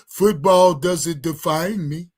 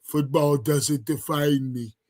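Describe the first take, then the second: First: Imitating him. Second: Slow, mock-solemn imitation of the player; imitating his delivery. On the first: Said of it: "He said it just like that". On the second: Streamer mocking the player's interview line, slow and mock-solemn. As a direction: drag it out like he's being profound. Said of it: "That's how he sounded".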